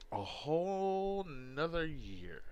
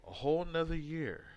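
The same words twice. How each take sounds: First: Slow and stretched, each word held; slow drawn out. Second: Said in the usual way. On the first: Shown as a demonstration. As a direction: draw out A whole nother year slowly.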